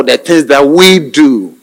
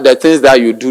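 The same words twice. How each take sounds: First: Corrective emphasis on "we", drawn out; slow down and lean firmly on "we"; stress on WE. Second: Said in the usual way. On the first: Acted. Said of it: "No, the things that we do". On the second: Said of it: "And don't say that".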